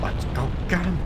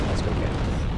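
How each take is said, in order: First: High, goofy cartoon voice; silly high voice. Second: Breathy whispered mutter; whispering. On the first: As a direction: squeak it out playfully. Repeated line, high silly take. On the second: Acted. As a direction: whisper it under the music. Repeated line, whispered first.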